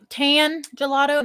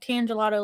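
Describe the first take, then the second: First: There is a break between tan and gelato. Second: Tan runs straight into gelato without a break. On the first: Gelato that is tan colored. The speaker calls it wrong. "not like a tan colored gelato" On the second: A gelato named after the tangelo fruit. The speaker calls it right. "but like tan gelato, like tangelo"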